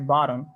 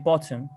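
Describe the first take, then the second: First: It is said with an American accent. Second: It is said with a British accent.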